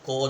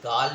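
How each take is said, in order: First: The vowel is a rounded 'aw' sound. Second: The vowel is an open, unrounded 'aa' sound. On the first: The speaker calls it right. "कॉल होता है" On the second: The speaker calls it wrong. "जैसे काल नहीं होता"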